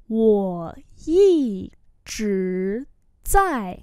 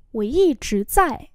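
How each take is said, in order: First: Very slow, separated syllables; slow model reading. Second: Said in the usual way. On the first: Shown as a demonstration. Teacher repeating a phrase for learners, very slowly. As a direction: give every tone its full length.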